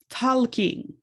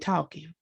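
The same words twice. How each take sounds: First: An L sound is pronounced before the k. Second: No consonant is pronounced before the k. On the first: "he is just talking with an L" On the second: "We don't never pronounce the L. We just say talking"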